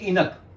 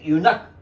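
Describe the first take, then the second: First: The word begins with an 'in' sound. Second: The word begins with a 'yoo' sound. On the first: The speaker calls it wrong. "ये इसको बोलेंगे इनक। इनक नहीं है" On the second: The speaker calls it right. "यू का उच्चारण फिर आ जाता है वायो यू"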